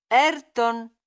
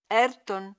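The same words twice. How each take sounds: First: "Ayrton" called much louder, insistent. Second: A first call, somewhat louder; calling his name. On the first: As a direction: call him louder, losing patience. ("Ayrton" chiamato molto più forte, con insistenza) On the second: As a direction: call to get his attention. (primo richiamo a "Ayrton", un po' più forte) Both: Acted. Calling Ayrton repeatedly.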